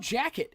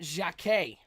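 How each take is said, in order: First: The surname is said in an American way. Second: The surname is said in a non-American way. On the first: The speaker calls it wrong. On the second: The speaker calls it right.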